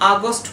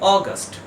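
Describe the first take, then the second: First: The first vowel is an open 'a' sound. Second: The first vowel is a rounded 'aw' sound. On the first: The speaker calls it wrong. "আমরা সাধারণত এই ওয়ার্ডটাকে উচ্চারণ করে থাকি আগস্ট বলে" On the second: The speaker calls it right. "কিন্তু এর correct pronunciation হবে অগাস্ট"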